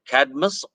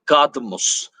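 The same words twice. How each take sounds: First: It is said with an English pronunciation. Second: It is said with a Greek pronunciation.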